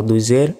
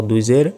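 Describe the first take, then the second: No difference in how they are said.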